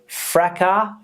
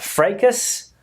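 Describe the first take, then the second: First: It is said with a British pronunciation. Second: It is said with an American pronunciation. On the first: "in British English, or where I come from, we pronounce this word fracas" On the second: "In the U S A, they pronounce the word"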